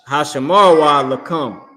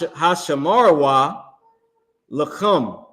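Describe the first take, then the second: First: The k in lakum is a plain k. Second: The k in lakum is a harsh throaty sound. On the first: The speaker calls it right. "This is the regular ka" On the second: The speaker calls it wrong. "I put the too much emphasis on the word come"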